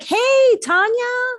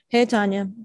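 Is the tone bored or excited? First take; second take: excited; bored. First: It sounds warm and excited. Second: It sounds bored and unenthusiastic.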